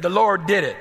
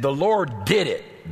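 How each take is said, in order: First: Louder proclaiming. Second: Said in the usual way. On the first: Shown as a demonstration. Preacher to congregation, proclaiming it louder. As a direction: raise it and proclaim it higher. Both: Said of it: "Everybody say".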